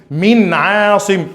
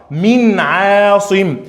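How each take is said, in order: The two takes are said the same way.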